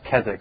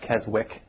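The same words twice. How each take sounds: First: The w in the middle is silent. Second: The w in the middle is pronounced. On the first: The speaker calls it right. "it's pronounced Keswick" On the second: The speaker calls it wrong. "not Keswick, W silent"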